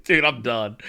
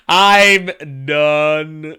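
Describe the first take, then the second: First: Said in the usual way. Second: "I'm done" with both words stretched long; drawn-out emphasis. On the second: Real, not acted. Host giving up after the joke, "I'm done" heavily drawn out.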